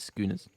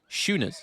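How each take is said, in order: First: The word starts with the 'sk' sound. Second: The word starts without the 'sk' sound. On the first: The speaker calls it wrong. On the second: The speaker calls it right.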